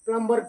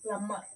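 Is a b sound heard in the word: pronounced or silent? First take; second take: pronounced; silent. First: A b sound is heard after the m. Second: No b sound is heard after the m. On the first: The speaker calls it wrong. "చాలామంది అంటాండ్రు" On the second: The speaker calls it right. "ఇక్కడ బి silent letter"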